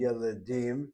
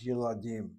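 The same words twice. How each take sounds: First: "yeledim" as yeh-leh-DEEM, middle eh; wrong plural form. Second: "yeladim" as yeh-lah-DEEM, middle ah; changed vocalization. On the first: Teacher shows students the expected but wrong plural, eh vowels. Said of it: "would not be yeledim". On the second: Teacher shows students the correct plural, changed vocalization. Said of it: "we change the vocalization". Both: Shown as a demonstration.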